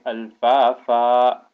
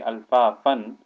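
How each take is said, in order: First: The word ends with a long vowel. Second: The word ends with an n sound. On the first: The speaker calls it right. "but you would say al-fa-fa" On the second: The speaker calls it wrong. "You would not say al-fa-fan"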